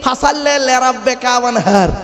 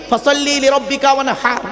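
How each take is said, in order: First: Slow, mocking ফাসাল্লি লিরাব্বিকা ওয়ানহার with the হ swallowed into a Bengali ওয়ানহার; mock wrong pronunciation. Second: ফাসাল্লি লিরাব্বিকা ওয়ানহার in proper Arabic, the হ from the throat; careful tajweed of ফাসাল্লি লিরাব্বিকা ওয়ানহার; correct recitation. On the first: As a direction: imitate the villagers' sloppy ফাসাল্লি লিরাব্বিকা ওয়ানহার. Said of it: "আর আমরা উচ্চারণ করি কি?". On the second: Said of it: "এ গলার ভেতর থেকে হে এটা উচ্চারণ করবেন". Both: Shown as a demonstration.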